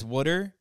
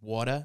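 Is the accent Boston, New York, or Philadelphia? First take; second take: Philadelphia; New York. First: It is said in a Philadelphia accent. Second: It is said in a New York accent.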